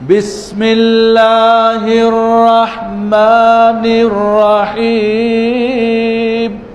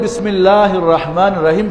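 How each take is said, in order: First: It is recited with a sweet, melodic tune. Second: It is recited plainly, without a melodic tune. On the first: It is recited beautifully, which is recommended but optional. "এবার সুর" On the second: It is simply correct recitation. "বিশুদ্ধ তেলাওয়াত"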